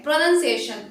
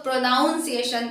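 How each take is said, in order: First: "प्रोनंसिएशन" said carefully as pro-NUN-ciation, with a short "nun"; correct pronunciation. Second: "प्रोनाउंसिएशन" said the common wrong way, with "nown" as in pronounce; wrong pronunciation. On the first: Teacher modelling the right "प्रोनंसिएशन" for students, with a short "nun". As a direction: model "प्रोनंसिएशन" clearly, with "nun" not "nown". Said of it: "इसे हम प्रोनंसिएशन बोलते हैं". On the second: Teacher showing students the wrong "प्रोनाउंसिएशन" with "nown". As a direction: stress the "nown" sound in "प्रोनाउंसिएशन". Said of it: "wrong way है".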